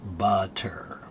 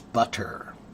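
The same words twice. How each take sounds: First: It is slow, with a full hard T. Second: The same.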